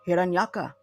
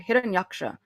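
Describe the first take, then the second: First: The ending is said with a plain k. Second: The ending is said with a ksh sound. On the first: This is how Bengali speakers say it. "Bengalis kind of they they say it differently" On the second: This is the usual pronunciation. "you'll hear Hiranyaksha"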